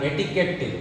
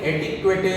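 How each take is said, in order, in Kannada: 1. ಇದರಲ್ಲಿ ಸರಳ 'k' ಶಬ್ದ ಇದೆ, 'kw' ಇಲ್ಲ. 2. ಇದರಲ್ಲಿ 'kw' ಶಬ್ದ ಇದೆ ಮತ್ತು ಕೊನೆಯಲ್ಲಿ ಒಂದು ಸ್ವರ ಇದೆ. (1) "ಇದನ್ನ ಎಟಿಕೆಟ್" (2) "ಇದನ್ನ ನೀವು ಎಟಿಕ್ವೆಟೆ ಅಂತಾಗಲಿ ... ಓದಬಾರ್ದು"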